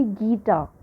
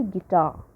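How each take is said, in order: First: "guitar" wrongly stressed as GUI-tar; GEE-tar, with a long, strong opening syllable; stress on first syllable. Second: "guitar" stressed as gui-TAR; gi-TAR, weak then strong; stress on second syllable. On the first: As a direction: hit the first syllable of "guitar" and weaken the second. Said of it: "We never say". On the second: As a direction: keep the first syllable of "guitar" short and land on TAR. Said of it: "We always say". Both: Shown as a demonstration.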